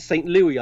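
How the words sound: The name is said with a British or French pronunciation. "I pronounce it St. Louis ... would be the French pronounced or British pronounced"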